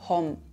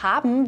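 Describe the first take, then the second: First: The word has one syllable with an 'o' vowel. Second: The word has two syllables with an 'a' vowel. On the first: This is the Austrian dialect form. "wird in unserem Dialekt zu hom" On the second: This is the standard form. "Das Verb haben"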